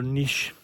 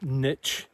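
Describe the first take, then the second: First: The word is said with a non-American pronunciation. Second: The word is said with an American pronunciation.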